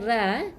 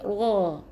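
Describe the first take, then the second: First: The r is said thin and light. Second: The r is said thick and heavy. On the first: The speaker calls it wrong. "bukan ra" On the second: The speaker calls it right.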